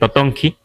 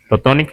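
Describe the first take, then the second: First: The word ends on a vowel sound. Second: The word ends on a consonant sound. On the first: This is the local form used here. "aquí decían Totonki" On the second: This is the form used in the Huasteca. "en la Huasteca decimos Totonic, como al revés"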